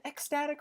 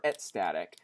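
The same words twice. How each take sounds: First: "ecstatic" said ek-STAT-ik, K sounded. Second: "ecstatic" said et-STAT-ik, T replacing the K; ecstatic without K. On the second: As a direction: swap the K in "ecstatic" for T: et-static. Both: Shown as a demonstration. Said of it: "never feel good pronouncing it either way".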